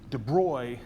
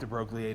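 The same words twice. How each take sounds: First: The name is pronounced the French way. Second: The name is pronounced as English spelling suggests. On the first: "as I guess the French pronunciation" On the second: "I call this de Broglie because it looks like de Broglie to me"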